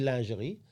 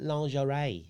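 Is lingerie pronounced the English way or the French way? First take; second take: French; English. First: The word has a French pronunciation. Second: The word has an English pronunciation. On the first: "in French, we say lingerie" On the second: "And then you call it lingerie"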